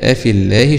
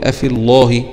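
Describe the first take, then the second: First: The L in Allah sounds light and thin. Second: The L in Allah sounds heavy and full. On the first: The speaker calls it right. "تركك اللام في اسم الجلال" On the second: The speaker calls it wrong. "اوعى تقرأ وتقول افي الله"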